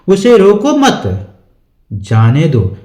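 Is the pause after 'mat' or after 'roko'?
after mat. There is a pause right after 'mat'. He should be allowed to go. "जाने की बात हो रही है।"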